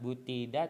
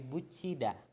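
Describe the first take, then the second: First: The consonant before 'i' is a plain t. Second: The consonant before 'i' is a ch sound. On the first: The speaker calls it wrong. "bukan butida" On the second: The speaker calls it right. "tapi bucida"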